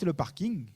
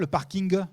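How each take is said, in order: First: The final g is only hinted, not released. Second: The final g is fully pronounced and released. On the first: The speaker calls it right. "Quand vous dites le parking" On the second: The speaker calls it wrong. "vous dites pas le parking"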